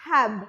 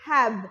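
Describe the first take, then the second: No difference in how they are said.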